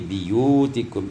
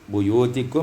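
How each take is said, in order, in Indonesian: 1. Suku kata pertama diucapkan dengan vokal i. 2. Suku kata pertama diucapkan dengan vokal u.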